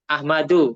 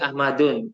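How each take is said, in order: First: The name ends in a short u vowel. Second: The name ends in an added n sound. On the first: The speaker calls it right. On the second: The speaker calls it wrong. "nggak boleh Ahmadun"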